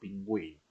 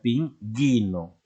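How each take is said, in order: First: The u after the g is pronounced. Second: The u after the g is silent. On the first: The speaker calls it right. "Esa U se pronuncia" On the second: The speaker calls it wrong. "Si no pusieras esa diéresis... ¿cómo se leería? Sería pingüino"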